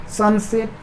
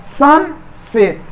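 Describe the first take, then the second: First: Said in the usual way. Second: sunset very slowly as सन, pause, सेट; split into syllables. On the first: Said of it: "दो हिस्सा में बट रहा है कि नहीं". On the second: Shown as a demonstration. Teacher asking if it divides in two, split into syllables. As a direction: pull sunset apart into two beats. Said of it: "दो हिस्सा में बट रहा है".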